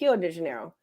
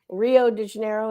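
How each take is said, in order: First: Rio begins with an H sound. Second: Rio begins with an R sound. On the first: The speaker calls it right. "it's actually Rio de Janeiro" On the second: The speaker calls it wrong. "what we always say"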